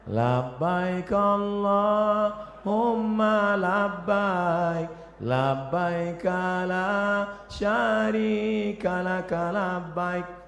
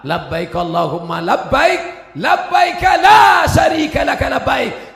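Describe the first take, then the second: First: It is said softly and gently. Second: It is called out loudly and forcefully.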